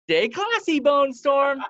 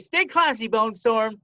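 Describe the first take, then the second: First: The voice rises at the end. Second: The voice falls at the end.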